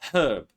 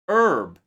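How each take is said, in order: First: The h at the start is pronounced. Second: The h at the start is silent. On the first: This is the British English form. "but in British English they say herb" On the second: This is the American English form. "American English"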